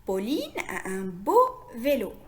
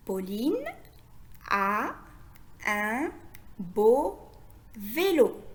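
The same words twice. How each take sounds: First: Said in the usual way. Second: Word by word with long pauses; dictation-like, each word separated and held; lecture mot à mot. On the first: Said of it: "lire la phrase d'aujourd'hui". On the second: Shown as a demonstration. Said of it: "Je répète". (lecture lente, un mot à la fois)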